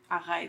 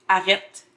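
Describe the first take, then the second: First: The first e vowel is long. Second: The first e vowel is short. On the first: This is how it is said in Montreal. "Et à Montréal, c'est arrête. ... Avec un est plus long" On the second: This is how it is said in Quebec City. "Je pense qu'à Québec, c'est arrête. On prononce comme toi"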